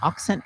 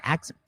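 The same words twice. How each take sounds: First: "accent" with an open "ox" first vowel; British-accent attempt. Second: "accent" with a short flat "ack" first vowel; corrected British attempt. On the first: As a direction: say "accent" as a fake-British "ock-sent". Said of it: "in me British accent". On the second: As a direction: say "accent" softly as "ack-sn't". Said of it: "wait, accent". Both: Shown as a demonstration.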